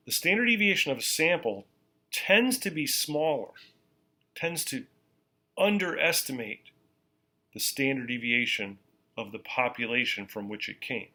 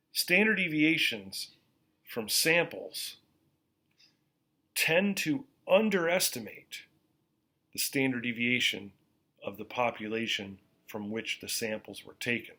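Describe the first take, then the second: First: Even slower, each phrase set apart; more slowly. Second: Slow, deliberate teacher delivery; slowly. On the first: Teacher repeating for note-takers, slower still. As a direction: give them time to write every word. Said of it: "I'll say it more slowly". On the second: Teacher to students taking notes, slow and deliberate. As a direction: spell it out word by word, slowly. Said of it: "I'm gonna say this slowly". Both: Shown as a demonstration.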